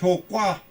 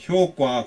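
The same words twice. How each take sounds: First: The second syllable starts with a tense consonant. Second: The second syllable starts with a plain consonant. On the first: The speaker calls it right. "효과로 읽는 것이 좋아요" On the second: The speaker calls it wrong. "효과 그랬는데"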